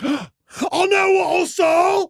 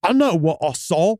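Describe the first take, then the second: First: Gasp, then a high, drawn-out cry; accented outburst. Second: Put-on measured British-accented insistence; restrained first take, British accent. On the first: Acted. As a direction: shout it in a hammy British accent. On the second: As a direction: say it firmly in a put-on English accent. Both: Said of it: "it almost comes across different when in that accent".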